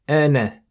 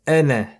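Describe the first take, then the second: The two takes are said the same way.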